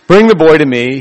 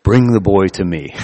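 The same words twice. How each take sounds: First: Louder, declaimed Vader quote; Darth Vader line, louder. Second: A hint of Darth Vader, a bit lower; lightly voiced Vader, low menace. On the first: Retold or imitated. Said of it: "tempted to make the Darth Vader sound". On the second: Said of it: "He says in his Darth Vader voice".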